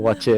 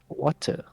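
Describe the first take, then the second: First: The name is said with a 'ch' sound. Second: The name is said without a 'ch' sound. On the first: The speaker calls it wrong. "I also thought it was like Watcher" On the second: The speaker calls it right. "pronounced as Water"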